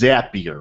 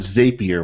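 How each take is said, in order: First: The name rhymes with happier. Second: The name does not rhyme with happier. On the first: The speaker calls it right. "the correct way to pronounce it is Zapier" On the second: The speaker calls it wrong. "which I mistakenly called it last week"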